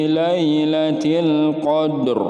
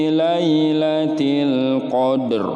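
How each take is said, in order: No difference in how they are said.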